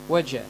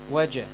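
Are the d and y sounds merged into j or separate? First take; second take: merged; merged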